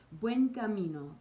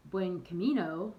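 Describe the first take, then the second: First: "Buen camino" in a Spanish accent, lighter and higher, clean vowels. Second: "buen camino" in an American accent, "camino" with an English a. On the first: Showing pilgrims the native way, Spanish accent. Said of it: "try it with that accent". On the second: Showing how Americans say it, American accent. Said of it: "like we'd say here in the States". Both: Shown as a demonstration.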